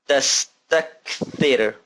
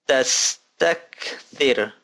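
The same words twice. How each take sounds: The two takes are said the same way.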